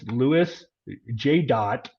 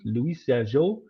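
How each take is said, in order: First: The name is pronounced with English sounds. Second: The name is pronounced with French sounds.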